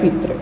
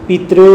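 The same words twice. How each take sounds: First: The final vocalic r is short. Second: The final vocalic r is long.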